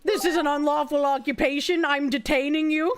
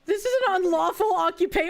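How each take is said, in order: First: Stern cop voice. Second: Rushed, clipped-off officer line; fast cop read. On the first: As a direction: lay down the law deliberately. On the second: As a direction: race through the arrest line. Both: Shown as a demonstration. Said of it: "oh, we're gonna go sovereign citizen".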